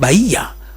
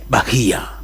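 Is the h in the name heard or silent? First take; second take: silent; heard. First: The h sound is left silent in the name. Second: The h sound is pronounced in the name. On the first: The speaker calls it wrong. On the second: The speaker calls it right.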